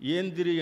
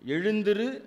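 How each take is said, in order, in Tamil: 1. ழ் அசை விழுந்துவிடுகிறது; அதனால் நெடிய e ஒலிக்கிறது. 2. இச்சொல் ழ் ஒலியுடைய 'ezhu' அசையைத் தக்கவைக்கிறது.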